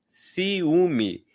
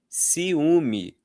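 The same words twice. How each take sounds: Both takes have the same delivery.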